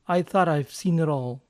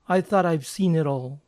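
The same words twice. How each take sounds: No difference in how they are said.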